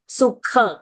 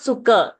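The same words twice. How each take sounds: First: The consonant before the final vowel is aspirated. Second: The consonant before the final vowel is unaspirated. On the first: The speaker calls it right. "kha mahaprana" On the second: The speaker calls it wrong. "not sukha"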